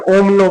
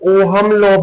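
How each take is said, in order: First: The h sound in Ohm is silent. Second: The h sound in Ohm is pronounced. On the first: "एच को silent रखेंगे" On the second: "कुछ teacher ओहम law भी बोल देते हैं"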